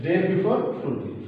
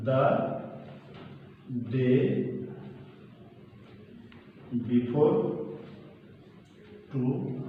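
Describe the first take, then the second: First: Said in the usual way. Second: Word by word with long pauses; the day before today, each word set apart and trailing softer; slow dictation. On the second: Shown as a demonstration. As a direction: spell out the phrase at writing speed. Dictating the answer while writing.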